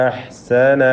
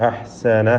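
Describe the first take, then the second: Both takes have the same delivery.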